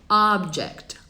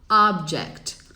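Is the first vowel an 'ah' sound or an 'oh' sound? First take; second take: ah; ah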